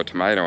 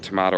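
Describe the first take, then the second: First: Tomato said to-MAY-to; ay vowel. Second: Tomato said to-MAH-to; long ah vowel. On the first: Ranger joking back about names, tomato said to-MAY-to. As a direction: say tomato with an ay in the middle. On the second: Ranger joking back about names, tomato said to-MAH-to. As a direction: say tomato with an ah in the middle. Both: Retold or imitated. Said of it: "what emphasis you wanna put on which syllable".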